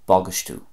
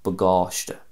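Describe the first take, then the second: First: It is said in an Ulster accent, ending in u. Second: It is said in a Munster Irish accent.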